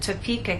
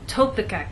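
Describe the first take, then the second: First: The stress is on the middle syllable. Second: The stress is not on the middle syllable. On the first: The speaker calls it right. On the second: The speaker calls it wrong.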